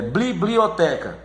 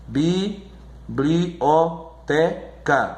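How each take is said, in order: First: Said in the usual way. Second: Very slow bi-bli-o-te-ca with gaps; syllable by syllable. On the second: Shown as a demonstration. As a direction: pause after each syllable of "Biblioteca". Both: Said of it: "você divide a sílaba".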